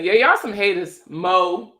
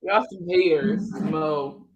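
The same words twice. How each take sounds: First: Baltimore accent, punchy MO at the end; playful Baltimore-accented jab. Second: Slower Baltimore accent. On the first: Streamer answers viewers mocking her Baltimore accent, playful Baltimore accent. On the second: Streamer repeats her jab at teasing viewers, slow Baltimore accent. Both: Shown as a demonstration. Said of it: "make fun of that B More accent".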